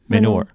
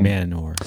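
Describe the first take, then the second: First: The word is said quickly. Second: The word is said slowly. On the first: "if you start to say it fast, you go" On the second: "Then you slow it down"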